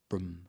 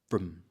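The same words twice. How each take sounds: First: The vowel is a short schwa and clipped. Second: The vowel is a short schwa and clipped.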